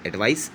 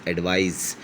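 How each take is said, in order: First: एडवाइस closing on a hissed s. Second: एडवाइस closing on a drawn-out z. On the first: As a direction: keep the last sound of एडवाइस voiceless, an s. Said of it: "थोड़ा सा फ़र्क है". (एडवाइस के आख़िर में स की आवाज़) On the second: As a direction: let the final z of एडवाइस buzz. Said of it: "जेड". (एडवाइस के आख़िर में लंबा ज़) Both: Shown as a demonstration.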